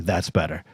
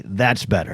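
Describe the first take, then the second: First: "That's better." said softer and lower, a kind easygoing version; the friendly way she did not say it. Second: "That's better." said dry and curt, lower at the end; a border officer's cool, unimpressed reply; curt official. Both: Retold or imitated. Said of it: "it wasn't like a friendly".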